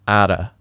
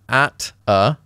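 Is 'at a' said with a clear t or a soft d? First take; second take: soft d; clear t. First: It is linked with a soft d sound. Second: It is said with a clear t sound.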